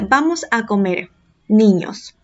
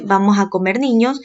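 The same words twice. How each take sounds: First: There is a pause before the last word. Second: There is no pause before the last word. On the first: The children are being called to come and eat. "La segunda frase dice" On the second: The children are what will be eaten. "en la primera dice"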